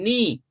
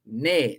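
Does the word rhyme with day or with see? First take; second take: see; day. First: The vowel sounds like the one in see. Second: The vowel sounds like the one in day. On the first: The speaker calls it wrong. "they've been saying knee, like your knee on your body" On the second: The speaker calls it right. "you pronounce it as if it's spelled N A Y, nay"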